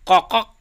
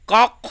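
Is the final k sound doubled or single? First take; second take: doubled; single. First: The final k sound is pronounced twice. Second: The final k sound is pronounced once. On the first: The speaker calls it wrong. "ये कॉकक नहीं होगा" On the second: The speaker calls it right. "कॉक होगा"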